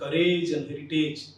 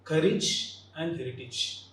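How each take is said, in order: First: The endings sound like the word 'age'. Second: The endings sound like a short 'ij'. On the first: The speaker calls it wrong. "Often we pronounce these two terms like courage and heritage. Age should not be" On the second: The speaker calls it right. "The N should be ij"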